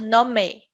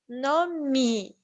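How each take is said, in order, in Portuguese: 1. A vogal final soa como 'e'. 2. A vogal final soa como 'ee'. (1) "Não vamos falar" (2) "Quando esse é está no final da palavra, ele vai ter o som de i"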